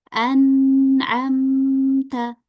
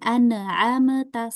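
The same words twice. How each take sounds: First: The silent consonant flows smoothly without bounce. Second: The silent consonant is released with a bounce. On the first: The speaker calls it right. "tapi kita alirin an'amta" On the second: The speaker calls it wrong. "bukan an'amta salah"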